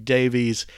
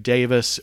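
First: The name ends with an 'eez' sound. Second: The name ends with an 'iss' sound. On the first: This is how many other people say it. The speaker calls it wrong. "too many people in the world who mispronounce it as Davies" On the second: This is how the owner of the name says it. The speaker calls it right. "[name] pronounces his last name Davis"

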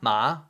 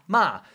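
First: It is said with the second tone. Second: It is said with the fourth tone.

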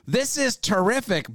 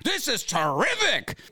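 First: It is read flatly, without much excitement. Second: It is said with lively, exclamatory excitement.

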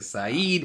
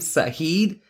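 First: No h sound is heard in the middle. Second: An h sound is heard in the middle. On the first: The speaker calls it right. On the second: The speaker calls it wrong.

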